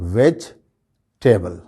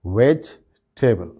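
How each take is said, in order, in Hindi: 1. 'veg' के बाद वाला 'e' अनस्ट्रेस्ड है। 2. 'veg' के बाद वाला 'e' अनस्ट्रेस्ड है।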